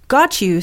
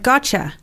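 First: The words are pronounced separately and fully. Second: The t and you merge into a 'cha' sound.

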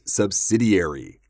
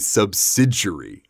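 First: The ending does not sound like jury. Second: The ending sounds like the word jury. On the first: "another pronunciation you will hear" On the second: "Jury, yes"

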